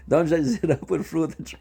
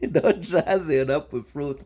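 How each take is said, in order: First: Said in the usual way. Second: Slow, laughing through the line; laughing repeat. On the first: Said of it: "repeats line". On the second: Shown as a demonstration. Repeating the guest's fruit line to her while laughing. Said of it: "repeats line laughing".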